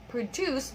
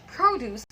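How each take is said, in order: First: Produce as a verb, pro-DUCE; stress on second syllable. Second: Produce as a noun, PRO-duce; stress on first syllable. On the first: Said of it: "the first one is a verb". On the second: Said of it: "the second one is a noun". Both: Shown as a demonstration.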